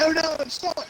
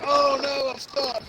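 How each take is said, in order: First: Much higher, hammed-up Australian cry; Australian accent, mock helpless and higher. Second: Higher, hammed-up cry for help; a touch of a mock panicked victim; mock helpless actor. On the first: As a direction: imitate a stuck Aussie in an Australian accent. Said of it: "he was Australian during that part". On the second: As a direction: play the stuck guy, over the top. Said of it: "he's like".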